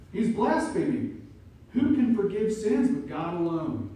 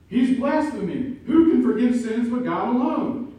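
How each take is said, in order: First: Louder, higher outraged scribes; indignant accusation. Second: Much higher, much louder scandalized cry; furious shout. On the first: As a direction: accuse him of blasphemy. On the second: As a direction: shout the accusation in outrage. Scribes' accusation voiced again. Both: Acted.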